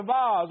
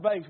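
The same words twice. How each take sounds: First: Vase said as vahz, the broad a of ah; vase rhyming with Oz. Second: Vase said as vayss, rhyming with face; Vase with a long ay and a hissed s; Southern vase. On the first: Correcting himself in front of the church, vase as vahz. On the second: Showing the church how the South says it, Vase as vayss. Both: Shown as a demonstration. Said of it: "how do we say it down here in the, in the South?".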